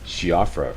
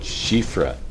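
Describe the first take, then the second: First: The name is pronounced following its English spelling. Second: The name is pronounced the traditional Irish way. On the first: This is the popular pronunciation most viewers chose. The speaker calls it wrong. "everybody decided that it was pronounced Shiofra" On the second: This is how native Irish speakers pronounce it. The speaker calls it right. "in traditional Irish, it's pronounced Shifra"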